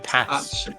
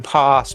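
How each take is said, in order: First: It is said in a northern English accent. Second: It is said in a southern English accent. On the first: "if you're from up north, ... we say pass" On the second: "In the southern parts of England, it's the same. You say pass"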